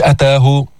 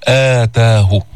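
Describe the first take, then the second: First: أتاه with a short opening a; wrong demo of أتاه, no lengthened start; wrong short hamza. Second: آتاه with a long opening aa; madd badal. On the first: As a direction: clip the first vowel of أتاه. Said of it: "مش". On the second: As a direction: stretch both long vowels of آتاه. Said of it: "كمان في مد بدل". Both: Shown as a demonstration.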